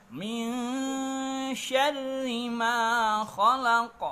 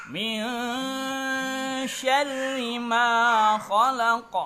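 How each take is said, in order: Both takes have the same delivery.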